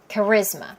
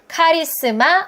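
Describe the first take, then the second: First: It is stressed on the second syllable. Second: It is said with flat Korean syllables. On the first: The speaker calls it right. "강세가 어디 있어요? 이음절에 있네요" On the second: The speaker calls it wrong. "카리스마 아니고요"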